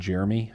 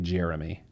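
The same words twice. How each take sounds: First: The name is said without an added vowel. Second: The name is said with an added vowel. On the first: "instead of saying Jeremy" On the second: "I like to throw the extra E in there"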